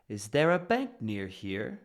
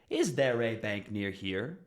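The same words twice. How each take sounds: First: Words before bank run together, rising to it. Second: Each word before bank is stressed separately. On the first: The speaker calls it right. "the first stressed word is bank. So everything before that is going to be rising up" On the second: The speaker calls it wrong. "You're not going to hear"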